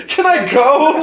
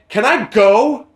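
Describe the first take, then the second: First: High, loud exasperated yell, laughing; mock yell. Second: Retold snap. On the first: The fed-up customer yells at the liquor store clerk, laughing. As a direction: shout it at the clerk, half laughing. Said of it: "I must have yelled". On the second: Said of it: "I, I go".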